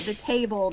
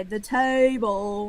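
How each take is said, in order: First: Said in the usual way. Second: "table" drawled very slowly, tay-ee-bul; multi-syllabic TABLE. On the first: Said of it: "made it a multi-syllabic word". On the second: Shown as a demonstration. Wife answering her husband's running joke, drawled-out table. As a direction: stretch "table" into extra Southern syllables. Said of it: "I will add syllables".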